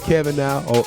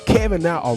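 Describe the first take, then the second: First: It is said with little energy. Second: It is said with lots of energy. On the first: The speaker calls it wrong. "I don't think I said it with enough energy" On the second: The speaker calls it right. "I'm gonna say that again"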